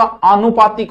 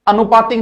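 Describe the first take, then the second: First: आनुपातिक begins with a long aa, aa-nupatik; आनुपातिक as aanupatik; correct long first vowel. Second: अनुपातिक begins with a short a, a-nupatik; अनुपातिक as anupatik; wrong short first vowel. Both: Shown as a demonstration. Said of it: "अनुपातिक नहीं होता".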